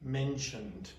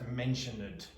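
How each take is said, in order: First: The -ed ending adds no extra syllable. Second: The -ed ending is said as an extra syllable. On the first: The speaker calls it right. "so it's mentioned" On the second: The speaker calls it wrong. "don't pronounce that mentioned"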